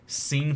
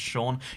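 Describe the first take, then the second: First: The name begins with a plain S sound. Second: The name begins with an SH sound. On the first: "why is scene pronounced Sean?" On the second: "pronounced Sean"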